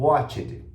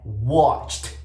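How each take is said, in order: First: The ending is pronounced as a separate 'ed' syllable. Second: The ending is pronounced as a short t sound. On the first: The speaker calls it wrong. "eu não vou pronunciar o e e o d, como a maioria dos alunos acabam pronunciando" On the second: The speaker calls it right. "Não, é watched"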